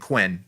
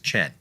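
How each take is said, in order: First: The name begins with a 'kw' sound. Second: The name begins with a 'ch' sound. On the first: This is the common domestic way to say it. "There is nothing wrong, I've discovered, with especially domestically saying Quinn" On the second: This is how it is said in Chinese. "I think the correct Chinese pronunciation of this is Chen"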